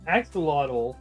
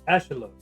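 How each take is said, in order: First: The word gets its usual English pronunciation. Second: The word approximates its original Mexican pronunciation. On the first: This is the common but inaccurate form. The speaker calls it wrong. "axolotl is not how it's pronounced in the language that they come from" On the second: This is closer to the source language form. The speaker calls it right. "it is more accurate to pronounce it as uh, Ashalot"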